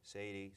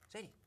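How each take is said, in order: First: The name is said in a flat, unchanging tone. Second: The name is said with a lively, changing tone. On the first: The speaker calls it wrong. "You can't just go" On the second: The speaker calls it right. "you have to use a change in tone"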